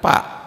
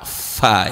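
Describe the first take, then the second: First: It starts with a p sound. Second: It starts with an f sound. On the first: The speaker calls it wrong. "bukan pa" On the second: The speaker calls it right. "fa ya"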